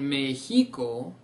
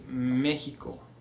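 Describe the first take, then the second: First: The stress is not on the first syllable. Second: The stress is on the first syllable. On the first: The speaker calls it wrong. "instead of saying Mexico" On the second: The speaker calls it right. "you need to stress that syllable"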